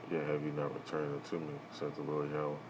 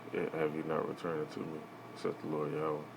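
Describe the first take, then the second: No difference in how they are said.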